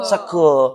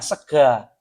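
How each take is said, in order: First: The final vowel is a rounded 'o' sound. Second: The final vowel is an open 'a' sound. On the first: This is how the speaker's own dialect says it. "Kita bunyinya sego" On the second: This is how the other region's dialect says it. "di sana bunyinya sega"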